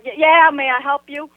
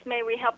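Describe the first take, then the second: First: Louder, mildly irritated offer; kinda mad. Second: Trying to be nice. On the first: Annoyed resident answers girl at car window, louder, mildly mad. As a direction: retell it with a touch of annoyance. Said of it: "now I'm kinda mad". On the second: Friend politely offers the stranger help, soft and nice. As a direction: gently imitate a nice friend. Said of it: "trying to be nice". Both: Retold or imitated.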